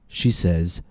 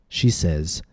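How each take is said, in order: No difference in how they are said.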